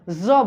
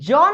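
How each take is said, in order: First: The consonant is said slightly softened, not fully. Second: The consonant is said plainly and fully. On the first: The speaker calls it right. "हम ज बोल रहे हैं" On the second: The speaker calls it wrong. "हम लोग ज नहीं बोल रहे हैं"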